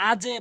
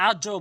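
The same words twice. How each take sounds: First: আজে bounced downward to a short "e"; correct qalqalah. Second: আজও with the bounce rounded to "o"; mistaken qalqalah. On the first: Teacher showing learners the required form, আজে with "e" bounce. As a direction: say আজে with a light "e" echo on the j. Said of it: "আজে বলতে হবে". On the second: Teacher warning learners what not to say, আজও with "o". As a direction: say আজও ending in a wrong "o" echo. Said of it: "আজও বলতে পারবেন না". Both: Shown as a demonstration.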